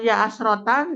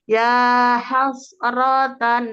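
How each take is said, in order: First: The second word starts without an h sound. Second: The second word starts directly with an h sound. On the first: The speaker calls it wrong. "Bukan ya asrotan, di situ huruf H langsung. Tadi ada penambahan huruf" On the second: The speaker calls it right. "langsung ke huruf H"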